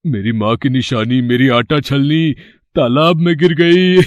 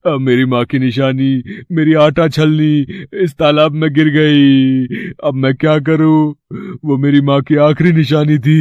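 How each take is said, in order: First: Fake crying, stifling laughs. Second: Fake crying. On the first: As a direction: pretend to weep but can't hold back a laugh. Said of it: "रोने का नाटक करता है।". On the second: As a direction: wail for the goddess's pity. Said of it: "तुम रो क्यों रहे हो?".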